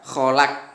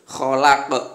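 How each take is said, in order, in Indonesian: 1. Konsonan terakhir berakhir datar tanpa memantul. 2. Konsonan terakhir berakhir dengan gema memantul. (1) "tidak boleh dibaca kholak gitu" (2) "harus berbunyi seperti membalik atau memantul"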